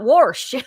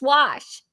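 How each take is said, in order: First: The word is said with an R sound. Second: The word is said without an R sound. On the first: The speaker calls it wrong. "You call it wash, and it's not wash" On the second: The speaker calls it right. "There's no R in wash"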